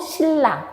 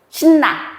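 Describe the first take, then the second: First: The middle consonant is an l sound. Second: The middle consonant is an n sound. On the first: The speaker calls it right. "리을로 바뀌죠" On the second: The speaker calls it wrong. "아니고"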